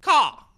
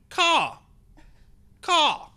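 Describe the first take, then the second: First: Crow saying word. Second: High, loud crow call; crow caw. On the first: Crow back to cawing after talking, saying it as a word. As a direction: crow pronouncing CAW as a word, high and loud. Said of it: "now it sounds like he's saying the word caw". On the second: Caged crow facing the onlookers, cawing. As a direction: squawk it like a crow. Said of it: "in this weird bird-like way, and then he's going". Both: Acted.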